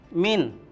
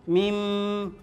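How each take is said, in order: First: The word ends with a clear n sound. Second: The word ends with a merged m sound. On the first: The speaker calls it wrong. "Jadi bunyinya bukan lagi min" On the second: The speaker calls it right. "Huruf n-nya hilang tapi langsung ke huruf mim"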